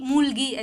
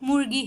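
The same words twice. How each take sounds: First: The middle consonant is a plain L-like sound. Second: The middle consonant is a curled R-like sound. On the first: This is an easier substitute for learners. The speaker calls it wrong. "अगर आपको वो pronunciation नहीं आ रही है तो ल- मुर्गी ऐसे बोल सकते हैं" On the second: This is the proper native form. The speaker calls it right. "Correct pronunciation मुर्गी है"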